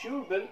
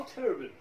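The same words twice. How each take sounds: First: First syllable of تيربن said "tyoo", pitched high; "tyu" pronunciation. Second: First syllable of تيربن said "ter", no y-glide; "ter" pronunciation. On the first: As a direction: say تيربن as "TYOO-ben", with a y-glide. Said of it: "تشو-، تشو". (نطق تيربن بمقطع أول «تيو») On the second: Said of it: "أو تيربن". (نطق تيربن بمقطع أول «تير» دون ياء) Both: Shown as a demonstration.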